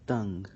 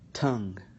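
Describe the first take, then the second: First: The t is released without a puff of air. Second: The t is released with a puff of air. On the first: "with the ta" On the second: "with the T"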